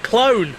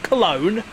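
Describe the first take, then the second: First: The word is squeezed into one syllable. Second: The word is said with two syllables. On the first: The speaker calls it wrong. "You said clone" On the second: The speaker calls it right. "not Cologne"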